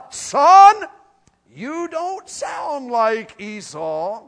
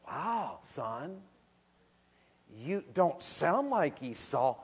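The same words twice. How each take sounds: First: Put-on very slow doubting old man, loud at first; slow, loud mock suspicion; suspicious old father. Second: Put-on soft, slow puzzled old man; soft, slow, half-fooled father; hushed old father. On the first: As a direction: draw it out like a suspicious blind father. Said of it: "And Jacob's father says". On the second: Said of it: "and his dad goes".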